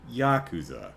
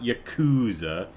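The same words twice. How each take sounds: First: It is said closer to the Japanese way. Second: It is said the Americanized way. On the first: The speaker calls it right. "it's Yakuza" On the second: The speaker calls it wrong. "It's not Yakuza"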